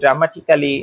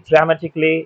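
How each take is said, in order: First: The ending is a full 'kally' sound. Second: The ending is a short 'klee' sound. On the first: The speaker calls it wrong. "এরকম করে বলি না, ক্যালি হবে না" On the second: The speaker calls it right. "এটা হবে ক্লি"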